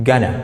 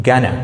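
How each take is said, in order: Both takes have the same delivery.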